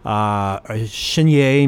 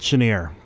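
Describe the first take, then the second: First: The name is said in a non-American way. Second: The name is said the American way. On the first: "maybe you think you should pronounce it" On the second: "in the United States, they called it"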